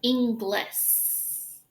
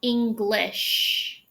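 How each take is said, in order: First: Inglis ending in a thin s sound; Inglis, wide-mouthed s ending; mispronounced Inglis. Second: English ending in a rounded sh; English with lips rounded for the sh; English, clear sh at the end; correct English. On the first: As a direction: say Inglis with a plain s at the end. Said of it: "You see how that's different with my mouth". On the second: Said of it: "You see how I form that differently". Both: Shown as a demonstration.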